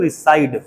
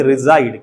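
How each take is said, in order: First: रिसाइड said with a hissing s, ri-SIDE; mock the common Indian slip: रिसाइड with a plain s; रिसाइड with s, not z; wrong s sound. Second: रिसाइड said with a buzzing z, ri-ZIDE; teacher's correct take: रिसाइड with a clear z; रिसाइड with z in the middle; correct z sound. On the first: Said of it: "इसे कुछ लोग रिसाइड बोलते हैं". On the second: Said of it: "जा का sound". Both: Shown as a demonstration.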